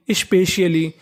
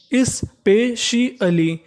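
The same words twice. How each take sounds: First: Said in the usual way. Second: specially very slowly and higher, as is-pe-shi-alee; syllable by syllable. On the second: Shown as a demonstration. Teacher spelling out sounds for learners, syllable by syllable. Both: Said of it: "इसे पढ़ेंगे स्पे".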